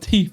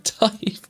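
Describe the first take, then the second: First: The word is said like teeth, with an ee vowel. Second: The word is said like tife, with an eye vowel. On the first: The speaker calls it wrong. "it's not a teeth" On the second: The speaker calls it right. "it's a Tife"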